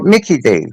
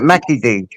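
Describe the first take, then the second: First: The first vowel sounds like 'ih' in 'kick'. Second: The first vowel sounds like 'ah' in 'back'. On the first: This is how others call the restaurant. "They call it Mickey D's" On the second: This is how the speaker's own group calls it. "we call it Mackie D's"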